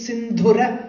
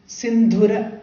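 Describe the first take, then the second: First: The second-syllable vowel is kept short. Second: The second-syllable vowel is kept short.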